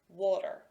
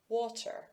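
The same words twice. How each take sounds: First: The middle T is a quick flap. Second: The middle T is aspirated with a puff. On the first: This is the usual, everyday way of speaking. "I will use that flap sound" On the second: This is used in formal situations. "I will shift and use the aspirated T sound"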